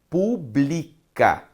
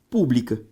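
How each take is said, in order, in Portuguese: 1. A tônica está na segunda sílaba. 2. A tônica está na primeira sílaba. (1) "Esta palavra, um verbo" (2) "também pode ser reescrita da seguinte forma"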